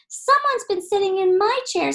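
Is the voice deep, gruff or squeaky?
squeaky. It is said in Baby Bear's high squeak.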